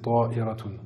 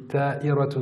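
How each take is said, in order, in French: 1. La première consonne est un t emphatique, lourd. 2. La première consonne est un t simple, léger. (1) "la bonne orthographe, c'est ta'iratun" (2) "j'ai dit ta, c'était un ta"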